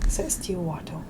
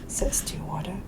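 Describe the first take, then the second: Both takes have the same delivery.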